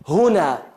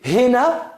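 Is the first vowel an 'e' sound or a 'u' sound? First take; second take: u sound; e sound. First: The first vowel is a 'u' sound. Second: The first vowel is an 'e' sound. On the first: This is the Classical Arabic form. "lo correcto en árabe clásico es con una damma" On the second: This is the Egyptian dialect form. "en egipcio se dice hena, hacen una casra"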